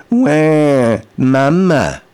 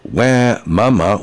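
First: Put-on louder, higher wail like a crying baby. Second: Said in the usual way. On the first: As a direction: cry Wah, mama like an infant. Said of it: "In the right tonality". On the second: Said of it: "just saying, "Wah, mama," wasn't good enough".

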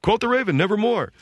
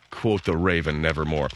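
First: High, sing-song mock teen recital of "Quote the Raven, nevermore"; teenager reading. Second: Lower, somber "Quote the Raven, nevermore"; sad reading. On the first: Son recites to the family, high sing-song mock reading. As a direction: chirp it like a careless teen. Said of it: "he's reading it like a teenager". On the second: Shown as a demonstration. Host shows how the line should be read, low and sad. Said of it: "Just to read the thing like he's sad".

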